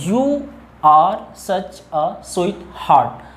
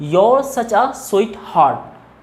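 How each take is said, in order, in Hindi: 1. 'You are' दो पूरे शब्दों की तरह बोला जाता है। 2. 'You are' एक सिलेबल में मिल जाता है, 'your'।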